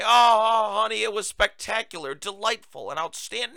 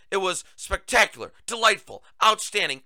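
First: Mock gushing. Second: Said in the usual way. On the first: Mocking how no one answers how was your day, hammed-up gushing. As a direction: mockingly overdo a sugary 'honey' reply. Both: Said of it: "No one talks like this".

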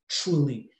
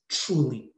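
No difference in how they are said.

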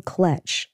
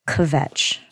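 First: "kletch" said with an L after the K; mispronounced kvetch. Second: "Kvetch" said with a V after the K; corrected pronunciation. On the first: Friend garbles a Yiddish word, saying "kletch" with an L. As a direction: say "kletch", L in place of V. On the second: Roseanne corrects her friend's word, "Kvetch" with a V. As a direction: say "Kvetch" clearly, V replacing the L. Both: Retold or imitated. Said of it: "Roseanne corrects her and says".

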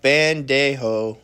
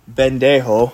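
First: "bandejo" slowly, with an a sound after the b and a breathy h sound for the j; corrected pronunciation. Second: "bendejo" with a short e sound after the b, the way she kept mispronouncing it; wrong pronunciation. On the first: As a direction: say "bandejo" carefully, as the proper way. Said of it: "It's like a pronunciation thing". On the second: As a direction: say "bendejo" with an e sound, louder, as her old mistake. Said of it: "the word that I kept saying was". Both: Shown as a demonstration.

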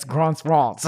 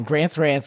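First: "Grant's Rants" with long open ah, "Grahnts Rahnts"; imitated British A. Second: "Grant's Rants" with the front a of "cat"; American A. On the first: Guest imitates host's way of saying his title, broad-A "Grant's Rants". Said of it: "It's a different take". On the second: Shown as a demonstration. Guest compares both versions of his show title, American "Grant's Rants". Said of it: "it doesn't rhyme".

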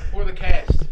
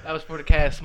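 First: Louder, punchy dedication; loud toast. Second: Said in the usual way. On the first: Shown as a demonstration. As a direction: call it out for the cast.

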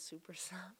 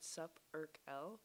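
First: Said in the usual way. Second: Supercell broken up as "Sup Urk L"; misread name. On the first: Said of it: "but it says Supercell". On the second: Shown as a demonstration. Showing a friend the old misreading of the game maker, split into "Sup Urk L". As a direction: say "Sup Urk L" as three separate chunks. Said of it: "I always thought it said".

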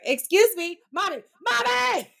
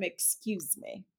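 First: Put-on impatient child. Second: Slow, soft, careful "Excuse me" with each word laid out; polite teaching model. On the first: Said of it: "he's like". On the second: Shown as a demonstration. Mother teaching her son to say "Excuse me", slow and soft. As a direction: model "Excuse me" slowly and gently, as a lesson. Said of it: "I'm trying to teach him".

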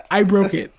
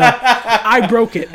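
First: Said in the usual way. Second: "I broke it" drawn out slowly and a bit louder, with a laugh; slow emphatic admission. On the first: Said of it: "At least go". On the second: Shown as a demonstration. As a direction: spell out "I broke it" slowly like a lesson. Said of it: "the knowledgeable human thing to say is go".

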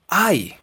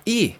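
First: "I" said as English "eye"; English letter I. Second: Said in the usual way. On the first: Shown as a demonstration. Teacher showing English letter alone, "I" as "ai". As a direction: say "I" as a gliding ai sound. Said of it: "En inglés, por sí sola, se pronuncia". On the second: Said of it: "La letra I".

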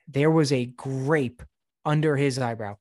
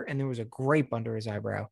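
First: Slow, weighty stress on "grape"; "grape" stretched out slowly for disbelief; emphatic slow repeat. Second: Said in the usual way. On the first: Real, not acted. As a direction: spell out the reveal, drawing out "grape".

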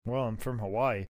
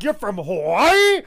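First: Low, quiet admission; understated Crush. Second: Loud, drawn-out disbelief; astounded Vince. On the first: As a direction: say it small and deep. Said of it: "Crush is like". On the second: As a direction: stretch it out as an outraged question. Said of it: "Vince's like". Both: Acted.

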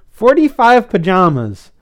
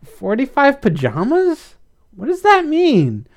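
First: "Forty-five pajamas" declared loudly, falling at the end; "Forty-five pajamas" as a high, emphatic statement; code word statement. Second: Slow, very high rising question; puzzled, drawn-out high query; confused. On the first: French fry grudgingly gives the code. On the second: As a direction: echo it in utter bafflement. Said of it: "Blythe was confused". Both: A narrator's reading.

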